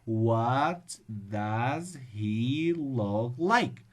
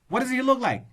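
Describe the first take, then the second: First: The sentence is spoken very slowly. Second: The sentence is spoken very quickly. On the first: "Or if you read it slowly" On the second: "reading fast does not mean that you're fluent. If you say"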